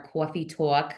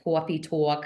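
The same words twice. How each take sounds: First: Said in the usual way. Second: [name]'s New York accent. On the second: Shown as a demonstration. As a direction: say coffee talk as awfee tawk, New York style. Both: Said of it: "my New York accent".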